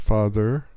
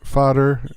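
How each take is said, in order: First: The middle consonant is a th sound. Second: The middle consonant is a d sound. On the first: "instead of father" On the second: "they pronounce the a th sound like a the, the letter D"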